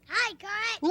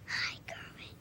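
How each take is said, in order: First: It is said very loudly. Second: It is said very softly.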